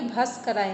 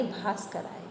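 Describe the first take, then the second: First: भास्कराय with a short first "a"; short first vowel. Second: भास्कराय with a long "aa" first; long first vowel. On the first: Teacher showing the student's mistake, भास्कराय with short first "a". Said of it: "भास्कराय नहीं". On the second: Teacher correcting the student, भास्कराय with long first "aa". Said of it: "बड़े आ की मात्रा है". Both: Shown as a demonstration.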